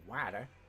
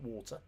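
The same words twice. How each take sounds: First: It is said in an American accent. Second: It is said in a British accent.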